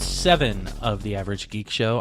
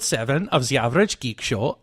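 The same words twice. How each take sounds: First: It is said in the speaker's ordinary accent. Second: It is said in a put-on German accent.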